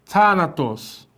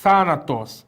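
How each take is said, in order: First: Thanatos drawn out syllable by syllable, very slow; teacher joins the syllables into thanatos. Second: Thanatos with the TH softer than a plain T; touch the teeth and soften the TH in thanatos. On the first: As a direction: sound out thanatos slowly, joining the syllables. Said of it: "Junta tudo". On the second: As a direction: model pronunciation with the soft Greek theta. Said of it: "é su-, mais suave". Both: Shown as a demonstration.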